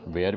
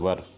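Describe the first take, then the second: First: The vowel sounds like 'air', as in 'wear'. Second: The vowel sounds like 'er', as in 'fur'. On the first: This is the Indian way of saying it. "Indian pronunciation के अनुसार वेयर" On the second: This is how English people say it. "English people होंगे वो वर बोलते हैं"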